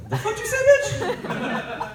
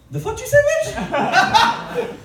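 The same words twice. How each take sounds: First: High shrieked outrage, much higher; outraged shriek. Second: Slow, high, loud shrieked outrage; outraged shriek. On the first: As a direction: shriek it in mock disbelief. Comedian's furious outburst at mom. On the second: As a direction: stretch out a shocked high yell. Reaction to sister's name Fiona. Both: Retold or imitated.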